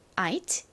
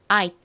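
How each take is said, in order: First: It is slower, with the final T clearly pronounced. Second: It is quick, with the final T barely heard. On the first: "아이트 소리가 나죠?" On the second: "빠르게 발음하다 보면 아잇"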